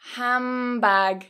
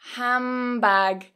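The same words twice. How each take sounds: First: The d is dropped and n becomes m. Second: The d is dropped and n becomes m.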